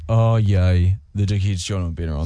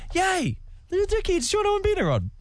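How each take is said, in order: First: It sounds sarcastic and negative. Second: It sounds sincerely happy and positive.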